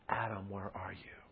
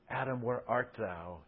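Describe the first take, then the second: First: The voice sounds tender and heartbroken. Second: The voice sounds angry and harsh. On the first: The caller longs for a lost child. The speaker calls it right. "it's the broken heart of God looking for his child" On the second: The caller is furious at the one who hid. The speaker calls it wrong. "In anger"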